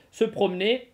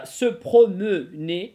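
First: "Se promener" quicker, as se prom-nay; unpronounced schwa. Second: "se promener" loud and very slow, every э voiced; sounded schwa. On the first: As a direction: drop the middle э of "promener". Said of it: "можно нет, можно не произносить". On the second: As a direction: spell out "se promener" syllable by syllable, pro-meu-nay. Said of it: "я её произношу". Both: Shown as a demonstration.

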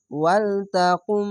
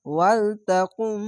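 First: Drawn-out ওয়ালতাকুম with nasal gunna held; slow Quran recitation. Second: ওয়ালতাকুম drawn out slowly after spelling; slow tajweed reading of ওয়ালতাকুম; slow recitation. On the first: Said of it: "এখানে ঈদগামে বা গুন্না". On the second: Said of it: "কাপ মিম পেশ কুম". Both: Shown as a demonstration.

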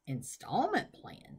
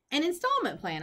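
First: Slow, drawn-out questioning echo; puzzled slow question. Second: Higher, firmer repeat of INSTALLMENT PLAN; insistent. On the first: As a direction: repeat INSTALLMENT PLAN slowly with a rise at the end. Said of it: "said the man". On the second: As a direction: press on with INSTALLMENT pitched up high. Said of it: "I said, ignoring the parent". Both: Acted.

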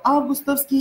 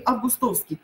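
First: Августовский with the first А stressed; Августовский, stressed on its first syllable. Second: Августовский stressed late, on «тов» said as «тоф»; августовский with the third syllable stressed. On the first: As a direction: hit the opening А in Августовский. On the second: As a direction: hit a full О in августовский. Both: Shown as a demonstration. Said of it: "А или О".

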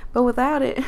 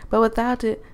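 First: Southern accent. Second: Said in the usual way. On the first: Shown as a demonstration. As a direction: put the country accent back on. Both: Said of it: "I'm losing the country accent".

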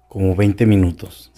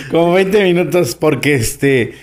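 First: Said in the usual way. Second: Higher, amused repeat through laughter; punchline repeated with a laugh. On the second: Real, not acted. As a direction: say it while still laughing.

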